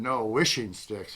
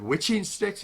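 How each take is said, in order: First: Slow and patient, leaning on "wishing"; correcting. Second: "Witching" asked with a high, surprised rise; the word "Witching" with a tch sound and a rising, puzzled question; surprised echo. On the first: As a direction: set him straight: "wishing", not witching. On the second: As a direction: echo "Witching sticks" back in disbelief. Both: Retold or imitated.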